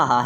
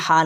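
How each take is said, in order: First: "ہا" as the thick, full Arabic H; thick H sound. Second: "ہا" as the thin Arabic H; thin H sound. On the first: Teacher tells students which H it is, thick "ہا". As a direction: give "ہا" a heavy H. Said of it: "یہ موٹا ہا ہے". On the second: Teacher tells students which H it is not, thin "ہا". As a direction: say "ہا" with the fine, narrow H. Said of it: "یہ بریک ہا نہیں ہے". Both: Shown as a demonstration.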